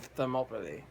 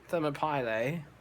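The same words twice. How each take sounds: First: The name is pronounced in its usual standard way. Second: The name is pronounced in a deliberately distorted way. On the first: The speaker calls it right. "it's actually Thermopylae" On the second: The speaker calls it wrong. "I deliberately mispronounced it"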